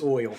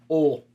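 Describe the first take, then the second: First: Said with a full 'oy' glide, standard pronunciation. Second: Said as one drawled vowel, like 'ol'.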